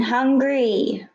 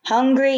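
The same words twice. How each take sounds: First: Wailing. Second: High wailing cry. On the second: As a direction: wail it like a hungry child. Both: A narrator's reading. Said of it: "you wailed again".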